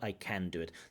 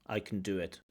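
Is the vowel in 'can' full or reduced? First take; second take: full; reduced. First: The vowel in can is full and clear. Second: The vowel in can is reduced and short. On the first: The speaker calls it wrong. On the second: The speaker calls it right.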